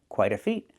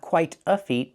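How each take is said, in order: First: The T in quite is a fast D sound. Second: The T in quite is a clear T sound. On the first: The speaker calls it right. "The T changes to a fast D" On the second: The speaker calls it wrong. "Not quite a feat"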